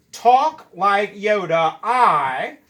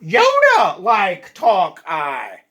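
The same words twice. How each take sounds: First: Slow Yoda reading, words spaced; gentle slow Yoda voice; mock Yoda order. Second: Slow, loud Yoda voice, words dragged out; hammed-up Yoda read, slow and loud; mock Yoda backwards. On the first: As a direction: say it slowly like Yoda. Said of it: "move that to the end like this". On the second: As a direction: drawl it like a bad Yoda. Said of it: "Let's try it out". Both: Shown as a demonstration.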